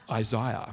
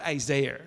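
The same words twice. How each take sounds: First: It is said in the speaker's own usual pronunciation. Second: It is said in the American pronunciation. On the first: This is how the speaker normally says the name. The speaker calls it right. "I also say Isaiah. Like that?" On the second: This is how others say the name. The speaker calls it wrong. "Not Isaiah"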